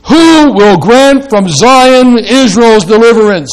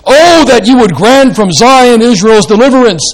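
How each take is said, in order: First: Raised, louder ardent reading; ardent plea. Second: "Oh" lifted high, louder, longing; ardent prayer wish. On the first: Preacher reading the psalm aloud to the congregation, raised and ardent. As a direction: cry out the question as a longing plea. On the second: Preacher rendering the verse as an ardent prayer, raised voice. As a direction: pray the line as a yearning wish. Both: Shown as a demonstration. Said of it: "make it a kind of ardent prayer wish".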